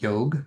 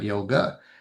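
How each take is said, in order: First: The word ends on the g consonant. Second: The word ends with an added vowel. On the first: The speaker calls it right. "yog is not yoga" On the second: The speaker calls it wrong. "is not yoga"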